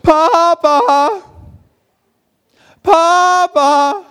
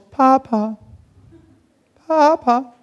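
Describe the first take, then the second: First: It is called out loudly. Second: It is called fairly quietly.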